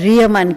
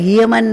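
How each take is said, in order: First: The word begins with an R sound. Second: The word begins with an H sound. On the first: The speaker calls it right. "એનો ઉચ્ચાર રિયમાન કહેવાય" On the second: The speaker calls it wrong. "હ ન બોલાય, હિયમાન ન કહેવાય"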